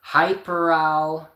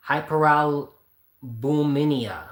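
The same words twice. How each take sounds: First: "hyperal" drawn out very slowly then abandoned; giving up pronouncing. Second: "hyperalbuminemia" sounded out very slowly, syllable by syllable; slow, careful attempt at "hyperalbuminemia"; struggling pronunciation. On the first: Admitting he can't pronounce it, trailing off slowly. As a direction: stall halfway through "hyperal". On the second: Reading an unfamiliar disease name, sounding it out slowly. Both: Real, not acted. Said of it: "I couldn't really pronounce what he had".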